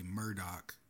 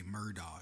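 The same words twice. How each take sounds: First: "Murdoch" ending in a hard k sound; "Murdoch" pronounced MUR-dock; Murdoch pronunciation. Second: "Murdaugh" ending on an open aw, no k; "Murdaugh" with a silent gh; Murdaugh pronunciation. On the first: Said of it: "Some people say Murdoch". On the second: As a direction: say "Murdaugh" as MUR-daw. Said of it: "others say Murdaugh". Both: Shown as a demonstration.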